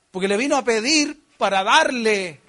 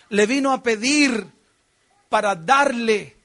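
First: Said in the usual way. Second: "pedir" hit hard, "darle" drawn out slowly; slow down and land "para darle"; stress on pedir and darle. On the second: Shown as a demonstration. Preacher repeating to the church, "darle" slowed and stressed. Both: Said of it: "¿Está escuchando eso?".

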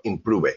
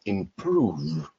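First: IMPROVE read Spanish-style, im-PROO-veh; wrong Spanglish pronunciation. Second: IMPROVE as two syllables, im-PROOV; correct English pronunciation. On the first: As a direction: add a vowel on the end of "improve". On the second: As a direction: say "improve" with a long oo and no extra vowel at the end. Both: Shown as a demonstration. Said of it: "not improve".

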